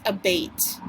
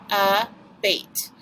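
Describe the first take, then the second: First: Said in the usual way. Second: ABATE in two separate beats, "a", then "bait"; split into syllables. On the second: Shown as a demonstration. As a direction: break abate after the a. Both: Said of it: "We do the syllables".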